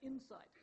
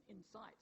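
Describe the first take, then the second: First: Insight as IN-sight, first syllable stressed. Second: Insight as in-SIGHT, like "incite"; stress on second syllable. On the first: Lecturer giving stress-pair examples, insight stressed on first syllable. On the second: Lecturer giving stress-pair examples, insight stressed on second syllable. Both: Shown as a demonstration. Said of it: "differ in stress".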